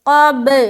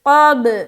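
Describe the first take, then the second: First: The final b is released with an echoing bounce. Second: The same.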